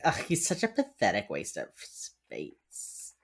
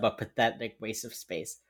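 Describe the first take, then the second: First: Low, slow, drawn-out disdain; mock disgust. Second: Said in the usual way. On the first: Imitating an agent disparaging her son, mock-disgusted. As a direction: sneer it theatrically, stretching the last word. Acts out insult, later repeats plainly.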